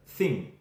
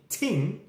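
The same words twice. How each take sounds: First: Said in the usual way. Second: TING with a hard T in place of TH; TING, the Jamaican way, T replacing TH. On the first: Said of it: "instead of thing". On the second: Shown as a demonstration. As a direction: say TING slowly, starting on a clean T. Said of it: "We will say ting".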